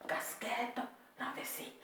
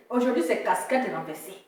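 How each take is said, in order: First: Whisper. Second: Said in the usual way. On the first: Shown as a demonstration. Streamer whispering his look to viewers, whispered. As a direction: whisper it, no voice at all. Repeats phrase then whispers it.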